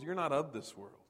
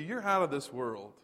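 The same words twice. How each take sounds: First: "not" hit harder than the rest; the weight on "not", then the voice falls; stress on not. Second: "out" leaned on, falling at the end; stress on out. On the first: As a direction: punch the word "not" in "you're not of this world". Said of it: "You're not just out of this world". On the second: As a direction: lean into the word "out". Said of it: "Peter says it's even more than that". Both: Shown as a demonstration.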